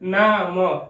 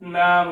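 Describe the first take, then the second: First: The final m is followed by a short a. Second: The final m is closed with no vowel. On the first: The speaker calls it wrong. "मीम पे जबर है तो मीम जबर म" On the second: The speaker calls it right. "मीम माकूफ या साकिन"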